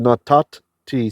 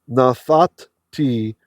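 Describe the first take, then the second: First: It uses the ordinary modern pronunciation. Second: It uses a reconstructed ancient pronunciation. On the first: "but we'll just say natat t" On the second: "Let me pronounce it how it would have been in ancient times"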